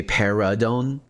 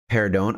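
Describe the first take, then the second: First: "perdón" with an extra vowel, like "pe-ra-don"; incorrect pronunciation. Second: "perdón" in two syllables, R straight into the d; correct pronunciation. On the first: Speaker showing their mistake, three-syllable "perdón". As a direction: slip an uh between R and d in "perdón". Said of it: "incorrectly, I say". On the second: Speaker showing the intended form, two-syllable "perdón". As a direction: say "perdón" with no vowel after the R. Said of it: "incorrectly, I say, instead of saying". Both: Shown as a demonstration.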